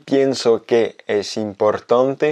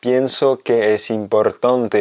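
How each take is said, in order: First: Slow, careful, ending on a rise; slow demo. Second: Slow, careful, ending on a fall; slow repeat. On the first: Teacher reading a clear example slowly. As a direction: read it out slowly. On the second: Teacher repeating the example slowly with a final fall. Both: Shown as a demonstration. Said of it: "deux exemples très précis".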